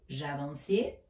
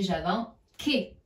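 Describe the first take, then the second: First: The c is said as an s sound. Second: The c is said as a k sound. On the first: The speaker calls it right. "Si j'écris j'avançais" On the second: The speaker calls it wrong. "le C fait le son que"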